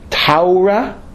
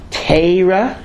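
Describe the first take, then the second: First: The first vowel sounds like 'au'. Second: The first vowel sounds like 'ai'. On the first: "Taura, if you're a German" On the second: "Teira, if you're a Litvak"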